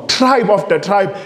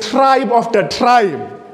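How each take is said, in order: First: Said in the usual way. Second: Slow and weighty, each tribe leaned on; slow emphasis. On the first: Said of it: "repeated phrase". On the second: Shown as a demonstration. Preacher dwelling on the warning, slow and heavy. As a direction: drag out tribe after tribe to let it land. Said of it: "repeats the phrase".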